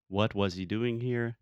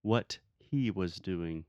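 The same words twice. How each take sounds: First: "what was" kept together, evenly paced question; model question. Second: Slow, "what" set apart before "he was doing"; quoted learner error. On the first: Teacher showing a student correct word order, model question. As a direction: demonstrate "was" straight after "what". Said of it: "the verb will come immediately after". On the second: Teacher quoting students' wrong word order, slow demonstration. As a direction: spell out the slip slowly, pausing after "what". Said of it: "Brazilians really have the tendency to say". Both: Shown as a demonstration.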